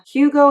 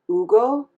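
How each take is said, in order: First: Hugo is said with an English pronunciation. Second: Hugo is said with a Spanish-style pronunciation.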